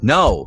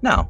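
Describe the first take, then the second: First: The word is said with irritation and impatience. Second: The word is said in a relaxed, casual way. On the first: The speaker is fed up with being asked. "stop asking me. I'm tired of it" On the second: The speaker is simply declining without fuss. "just very casually"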